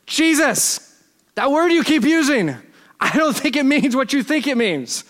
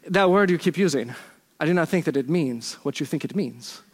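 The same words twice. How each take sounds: First: High, incredulous challenge; exasperated objection. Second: Badly faked Spanish accent. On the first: Acted. Imagined listener correcting Jesus with Inigo's line, exasperated. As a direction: call Jesus out, pitched up in disbelief. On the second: Preacher quoting Inigo to the Sicilian, weak Spanish accent. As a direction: attempt a Spanish accent without quite getting there. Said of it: "with his Spanish accent that I can't do".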